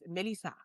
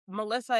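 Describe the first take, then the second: First: The name is said in a Haitian accent. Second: The name is said in an American accent. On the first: This is how the family elders say it. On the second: This is the usual American way.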